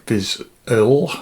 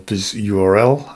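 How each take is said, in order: First: "Viz U R L" run together as one word, like "vizzle"; name as one word. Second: "Viz U R L" with U, R, L as separate letters; name spelt out. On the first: Host trying out the product name, "Viz U R L" blended as one word. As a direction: say "Viz U R L" blended into a single word, URL not spelt out. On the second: Host offering another way to say the name, "U R L" spelt letter by letter. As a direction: say "Viz", then spell out each letter of "U R L". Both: Shown as a demonstration. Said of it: "come up with the way I want to say that".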